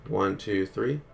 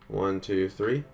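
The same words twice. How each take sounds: The two takes are said the same way.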